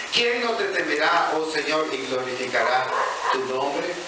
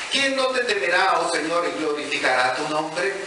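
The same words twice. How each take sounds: No difference in how they are said.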